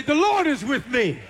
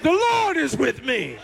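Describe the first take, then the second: First: Said in the usual way. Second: The Lord is with me declared with conviction. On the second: Shown as a demonstration. Congregation urged to believe, said with conviction. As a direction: say it like you believe it. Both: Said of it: "say it like you believe it".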